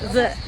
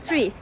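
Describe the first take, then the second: First: The word begins with a soft 'th' sound. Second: The word begins with a hard 't' sound. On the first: "Amerikan İngilizcesinde the diye okunur" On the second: "Türkler hep 3 diye telaffuz eder bunu"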